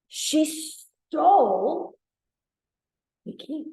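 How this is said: The stress is on stole.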